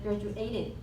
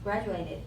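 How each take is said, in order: First: The stress is on a later syllable. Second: The stress is on the first syllable. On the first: The speaker calls it wrong. "he said graduated" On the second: The speaker calls it right. "the stress is in the first syllable"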